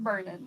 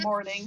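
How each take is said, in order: First: The first vowel sounds like 'er'. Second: The first vowel sounds like 'or'. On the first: "She calls it Mernin" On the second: "She's too southern to pronounce it morning"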